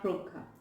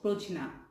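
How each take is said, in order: First: The middle consonant sounds like g. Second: The middle consonant sounds like j. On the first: The speaker calls it right. "not Progha" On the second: The speaker calls it wrong. "they will think that it should be pronounced as Projna"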